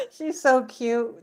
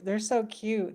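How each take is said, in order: First: Higher, slow doting coo on "She's so cute"; cooing over the dog. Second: Said in the usual way. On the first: Retold or imitated. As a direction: coo it to a pet, drawn out. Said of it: "I'm like".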